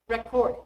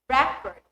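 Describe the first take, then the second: First: The stress is on the second syllable. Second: The stress is on the first syllable. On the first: It is used as a verb. "the verb is on the second" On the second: It is used as a noun. "The noun is stressed on the first syllable"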